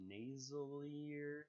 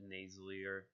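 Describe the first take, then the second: First: Nasalier said slow and higher, questioning; puzzled drawn-out word. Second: Said in the usual way. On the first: Shown as a demonstration. YouTuber doubting his own word, slow and higher. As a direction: stretch Nasalier out, unsure it exists. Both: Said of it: "Is that a word?".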